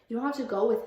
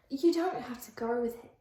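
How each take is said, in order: First: Said in the usual way. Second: A shaky attempt at an Australian accent. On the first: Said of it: "isn't Liam British too". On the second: Shown as a demonstration. The vlogger fumbling an Australian accent while voicing Liam. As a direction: say it like a bad Australian. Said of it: "That's Australian".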